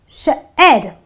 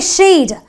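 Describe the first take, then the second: First: The vowel is a short 'eh' sound. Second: The vowel is a long 'ee' sound. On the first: The speaker calls it right. "I say shed" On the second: The speaker calls it wrong. "I don't say sheed"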